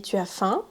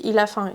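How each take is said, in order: First: "faim" rising at the end; rising question. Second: "faim" falling as a fact; falling statement. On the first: Teacher showing how a question rises. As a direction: raise the voice on "faim". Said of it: "Ma voix monte". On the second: Teacher showing a plain statement. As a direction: let "faim" drop. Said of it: "c'est un fait". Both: Shown as a demonstration.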